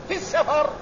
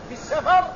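The two takes are said the same way.

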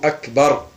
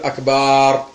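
First: The second vowel of akbar is short. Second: The second vowel of akbar is drawn out long. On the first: The speaker calls it right. "وإنما يقال الله أكبر" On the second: The speaker calls it wrong. "يمد في أكبر فيقول أكبر"

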